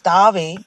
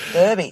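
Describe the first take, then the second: First: The word has a British pronunciation. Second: The word has an American pronunciation. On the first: "in the UK pronunciation" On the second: "in American"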